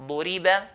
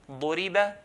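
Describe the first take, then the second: Both takes have the same delivery.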